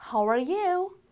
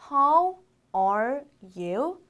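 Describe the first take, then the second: First: "How are you" linked in one phrase, higher; connected reading. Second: Very slow, a pause after every word; one by one. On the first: Teacher reading the whole greeting for learners, linked and higher. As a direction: run "How are you" together at a raised pitch. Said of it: "읽어보면". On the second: Teacher breaking a greeting down for learners, one word at a time. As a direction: read each word singly, drawn out. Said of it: "하나씩 읽어볼게요". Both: Shown as a demonstration.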